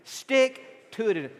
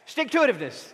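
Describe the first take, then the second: First: The word is said at a normal pace. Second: The word is said quickly. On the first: "Say that with me" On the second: "Say it fast"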